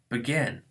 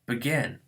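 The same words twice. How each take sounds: First: The stress is on the second syllable. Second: The stress is on the second syllable.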